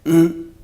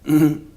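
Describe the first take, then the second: The two takes are said the same way.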